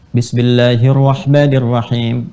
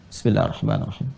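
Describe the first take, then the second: First: It is said aloud, clearly voiced. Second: It is said very quietly, almost silent.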